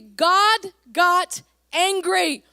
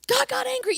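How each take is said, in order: First: God got angry slow and louder, each word leaned on; stress on God got angry. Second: Said in the usual way. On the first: Shown as a demonstration. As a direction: drive the line home slowly and forcefully. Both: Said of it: "it's okay to be angry".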